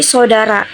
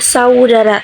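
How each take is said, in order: First: The first vowel is one plain vowel sound. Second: The first vowel glides between two vowel sounds. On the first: "dilafalkan menjadi"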